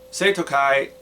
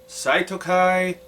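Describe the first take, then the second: First: The first syllable sounds like 'say'. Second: The first syllable sounds like 'sigh'. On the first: The speaker calls it right. "before I learned how to pronounce the Romanized versions of Japanese words" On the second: The speaker calls it wrong. "I spent years pronouncing it Saitokai for some reason"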